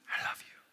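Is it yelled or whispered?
whispered. It is whispered softly.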